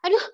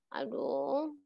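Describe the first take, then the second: First: It is said in a cynical tone. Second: It is said in a sad tone. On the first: "itu itu apa sinis sinis ya" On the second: "Nah ini sedih kan?"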